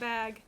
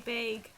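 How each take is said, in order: First: The word is said in a plain accent. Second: The word is said in a New York accent. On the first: "instead of bag" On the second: "the New York one ... they say bag"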